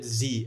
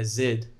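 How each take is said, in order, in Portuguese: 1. O nome da letra é falado do jeito americano. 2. O nome da letra é falado do jeito neozelandês. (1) "não é Z" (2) "A pronúncia, por exemplo, do Z deles"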